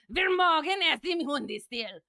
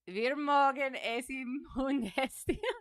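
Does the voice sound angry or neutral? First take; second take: angry; neutral. First: It is said in an angry tone. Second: It is said in a calm, neutral tone.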